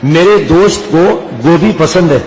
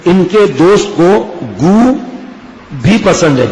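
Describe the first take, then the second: First: Said in the usual way. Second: Long break between گو and بھی; word split by pause. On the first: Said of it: "مار کھائے گا نہیں کھائے گا؟". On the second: Shown as a demonstration. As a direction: stretch گو and stop before بھی. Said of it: "کہاں آپ نے پخانے کا بول دیا".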